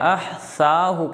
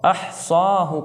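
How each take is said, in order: First: The middle consonant is a soft th sound. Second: The middle consonant is a thick emphatic s. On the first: The speaker calls it wrong. "सा" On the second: The speaker calls it right. "यहाँ पर सौद है"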